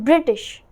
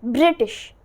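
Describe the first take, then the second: First: American accent, with the t sound pronounced. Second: The same.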